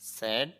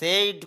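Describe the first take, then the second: First: The vowel is a short plain 'e' sound. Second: The vowel is a gliding 'ay' sound. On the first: The speaker calls it right. "স্যাড হবে" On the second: The speaker calls it wrong. "অনেকে এটা সেইড বলে আয় দেখে, এখানে সেইড হবে না"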